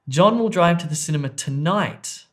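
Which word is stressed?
tonight. The stress falls on the word tonight. It happens this evening, not on another day. "not tomorrow"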